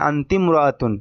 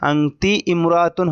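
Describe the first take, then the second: First: The first vowel of imra'atun is dropped and linked. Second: The first vowel of imra'atun is pronounced separately. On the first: The speaker calls it right. "এই আলিফটা উচ্চারণে আসবে না।" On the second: The speaker calls it wrong. "হওয়ার কথা ছিল"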